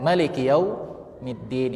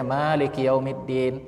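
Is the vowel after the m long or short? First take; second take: short; long. First: The vowel after the m is short. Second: The vowel after the m is long. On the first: "mimnya dipendekkan" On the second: "yang kita bacakan biasanya"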